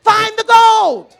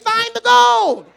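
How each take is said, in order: First: Loud, slow, gold stretched; emphatic refrain. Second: Loud, slow, higher, gold stretched; emphatic refrain. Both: Acted. Preacher repeating the refrain, loud slow. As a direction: hammer the word gold.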